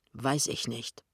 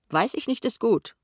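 First: Low, held-back anger; suppressed irritation, understated; restrained fury. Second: High, rising jeer; needling mimicry; mocking echo. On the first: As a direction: refuse to answer, low and falling. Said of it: "sagt Pinneberg wütend". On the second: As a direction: throw the words back scornfully, pitched way up. Kessler throws the answer back mockingly. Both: A narrator's reading.

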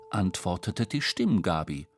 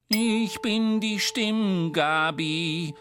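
First: Said in the usual way. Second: Very high, very slow, one steady note; high sung monotone, drawn out slowly; tuning fork creature. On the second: A narrator's reading. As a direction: sing "Ich bin die Stimmgabi" high and level like a tuning fork.

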